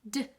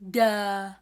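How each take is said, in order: First: The D is clipped short with no vowel. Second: The D is followed by an open vowel. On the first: The speaker calls it right. "Nice and short" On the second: The speaker calls it wrong. "You see our jaw dropping?"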